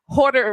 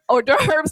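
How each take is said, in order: First: The word ends with a plain 'der' sound. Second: The word ends with a 'dervz' sound. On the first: The speaker calls it wrong. "not hoarder" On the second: The speaker calls it right. "I say hors d'oeuvre, hors d'oeuvres"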